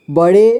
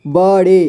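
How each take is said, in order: First: Said in the usual way. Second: बड़े split as ब, ड़े; syllable by syllable. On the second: Shown as a demonstration. Teacher showing learners बड़े, sounded out in parts. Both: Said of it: "इसे पढ़ेंगे".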